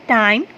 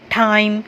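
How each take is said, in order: First: The t sound is soft and light. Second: The t sound is hard and aspirated. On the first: The speaker calls it right. "Softly pronounce करें" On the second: The speaker calls it wrong. "इसको एकदम से ना ठा वाला नहीं पढ़ना ... ऐसे नहीं पढ़ना"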